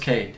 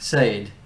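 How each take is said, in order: First: The name begins with a hard K sound. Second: The name begins with a soft S sound. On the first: The speaker calls it right. "with a, a hard. K" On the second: The speaker calls it wrong. "It's not Sade"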